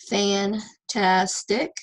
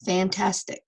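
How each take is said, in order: First: "fantastic" very slowly in three beats; teacher sounding out "fantastic"; syllable by syllable. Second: Said in the usual way. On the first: Shown as a demonstration. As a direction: separate each syllable of "fantastic", last one rising. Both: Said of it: "So separate it".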